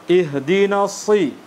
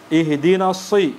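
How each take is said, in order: Both takes have the same delivery.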